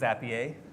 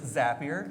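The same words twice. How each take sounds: First: The name has a French-style first syllable, not 'zap'. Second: The first syllable sounds like the word 'zap'. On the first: The speaker calls it wrong. "or French folks" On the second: The speaker calls it right. "It is Zapier, ... We build Zaps"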